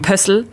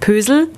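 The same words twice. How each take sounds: First: The s sound in the name is hard. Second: The s sound in the name is soft. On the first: The speaker calls it right. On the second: The speaker calls it wrong.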